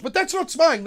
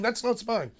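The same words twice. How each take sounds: First: High, loud sarcastic scoff; much higher, louder mock protest. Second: The mock line said again, dropped back down; sarcastic repeat. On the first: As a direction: sneer it like a fake excuse. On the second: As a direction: repeat the excuse with a smirk.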